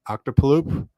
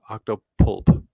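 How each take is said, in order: First: The name ends with a 'loop' sound. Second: The name ends with a 'pulp' sound. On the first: The speaker calls it wrong. "probably mispronouncing that right" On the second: The speaker calls it right. "I believe is correct"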